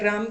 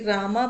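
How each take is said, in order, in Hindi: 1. नाम व्यंजन पर खत्म होता है, कोई अतिरिक्त स्वर नहीं। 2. नाम के अंत में अतिरिक्त 'a' स्वर जुड़ा है।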